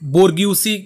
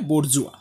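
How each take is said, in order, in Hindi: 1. यह 'bor-gyoo-see' की तरह बोला जाता है, 'see' पर खत्म होता है। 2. यह 'bor-zhwa' की तरह बोला जाता है, 'wa' पर खत्म होता है। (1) "जिसको आप बोर्ग्यूसी के हिसाब से भी प्रोनाउंस कर सकते हो" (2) "इसका एग्जैक्ट प्रोनाउंसिएशन है बोर्जुआ"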